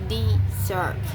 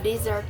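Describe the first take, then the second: First: The stress is on the second syllable. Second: The stress is on the first syllable. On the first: To abandon. "the stress shift to the second syllable" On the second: A dry region. "noun meaning a dry region in the first syllable is stressed"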